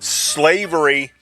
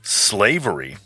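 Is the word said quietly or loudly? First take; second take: loudly; quietly. First: The word is said loudly. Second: The word is said quietly.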